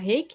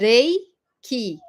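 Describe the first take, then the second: First: The R is a throaty, H-like sound. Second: The R is a light tap. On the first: This is the word adapted to Portuguese. "a portuguesando fala reiki" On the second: This is the original Japanese pronunciation. "a pronúncia correta, é reiki"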